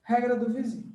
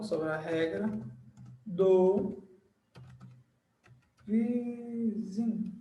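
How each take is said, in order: First: Said in the usual way. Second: Word by word, long pauses, last word drawn out; slow dictation. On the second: Shown as a demonstration. Teacher writing the rule's title on the board, dictating slowly. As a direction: dictate it softly while writing, drawing out words.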